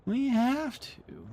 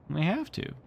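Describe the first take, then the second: First: Very high, slow whiny plea; pleading voice. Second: Said in the usual way. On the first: Pretend. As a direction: beg like a child for one more chapter. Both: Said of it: "urging one more chapter".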